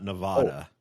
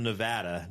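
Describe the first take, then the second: First: "Nevada" as "nuh-VAH-duh"; broad "vah" in the middle of "Nevada"; rejected pronunciation. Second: "Nevada" as "nuh-VAD-uh"; short "vad" in the middle of "Nevada"; local pronunciation. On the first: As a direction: say "Nevada" with the open a of "father". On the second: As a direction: say "Nevada" with the a of "cat". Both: Shown as a demonstration. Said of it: "not Nevada".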